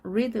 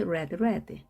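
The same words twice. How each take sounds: First: "read" pronounced "reed"; long ee in "read"; present-tense read. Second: Both "read" pronounced "red"; past forms of read. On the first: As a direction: say "read" to rhyme with "seed". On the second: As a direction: say "read, read" with a short e. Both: Shown as a demonstration. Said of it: "중요한 발음입니다".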